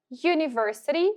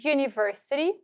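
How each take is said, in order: Both takes have the same delivery.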